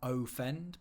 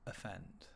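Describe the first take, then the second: First: The first vowel is a full, clear vowel. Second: The first vowel is a weak uh sound. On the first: The speaker calls it wrong. "It's not offend" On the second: The speaker calls it right. "but it's offend. Okay, so that sound is called a schwa"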